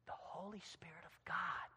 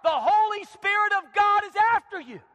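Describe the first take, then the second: First: Very soft, near-whisper; hushed reverence. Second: High, loud preaching climax; shouted warning. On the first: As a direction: say it in a reverent hush. Hushed after shouted climax. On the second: Climax of rebuke to husband. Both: Acted.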